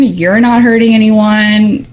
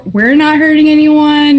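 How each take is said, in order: First: "You're not hurting anyone" dropped back down, slowly; answering parallel phrase. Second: "we're not hurting anyone" pitched higher; stress on we're side. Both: Acted. Contrasting both sides in negotiation.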